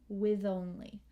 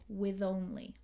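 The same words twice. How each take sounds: No difference in how they are said.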